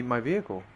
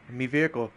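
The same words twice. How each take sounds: First: Said in the usual way. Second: A hint of British accent on me vehicle; slight British accent. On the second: Streamer slips while talking to chat, light British accent. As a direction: slip briefly into a British accent. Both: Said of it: "about to go British there".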